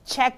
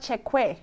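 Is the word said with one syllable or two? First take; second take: one; two. First: The word is said as one syllable. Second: The word is said with an extra syllable. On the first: "It's just Czech" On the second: "Because it's spelled like that"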